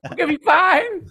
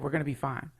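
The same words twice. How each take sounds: First: It sounds panicked and agitated. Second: It sounds calm and assured. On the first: The reassurance is not really believed. The speaker calls it wrong. "not in the way I would say it" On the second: The reassurance is sincerely believed. The speaker calls it right. "But like really said"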